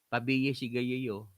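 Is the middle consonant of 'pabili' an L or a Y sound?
Y. Pabili is said with a Y sound instead.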